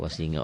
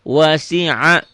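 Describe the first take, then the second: First: The middle consonant is an ng sound. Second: The middle consonant is a guttural sound. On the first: The speaker calls it wrong. "ada orang wasinga gitu" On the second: The speaker calls it right. "ainnya jadi enggak"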